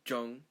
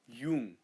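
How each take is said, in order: First: The word begins with a j sound. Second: The word begins with a y sound. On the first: The speaker calls it wrong. "not Jung" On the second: The speaker calls it right. "J makes a Y sound, so you say Jung"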